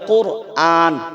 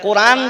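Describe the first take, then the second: First: The glottal catch and long vowel are kept. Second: The glottal catch and long vowel are dropped. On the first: The speaker calls it right. "আপনাকে বলতে হবে কোরআন।" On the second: The speaker calls it wrong. "তাহলে হামজাকে আসল মাদ্দাকে হযফ করছেন"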